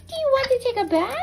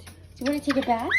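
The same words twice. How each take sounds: First: High, bright-eyed question to the dog; excited pet talk. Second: Said in the usual way. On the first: Real, not acted. Owner asking her dog if he wants a bath, excited. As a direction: hype the pet up for bath time.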